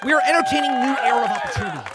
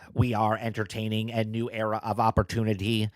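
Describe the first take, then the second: First: It is read in the speaker's own voice. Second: It is read in an imitated put-on voice.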